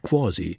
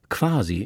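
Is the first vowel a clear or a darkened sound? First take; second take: darkened; clear. First: The first vowel is a darkened, o-like sound. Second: The first vowel is a clear, open a. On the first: "nicht quasi" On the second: "dass sie Lehnwörter meist nicht verdumpfen. So sagt Aiwanger quasi"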